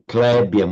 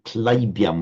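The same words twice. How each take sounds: First: The first vowel is a plain e-like vowel. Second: The first vowel is a distinct ai diphthong. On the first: This is the Hindi pronunciation. The speaker calls it wrong. "not to say Clybium, which would be the Hindi way" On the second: This is the Sanskrit pronunciation. The speaker calls it right. "but Clybium, which is the, the Sanskrit way"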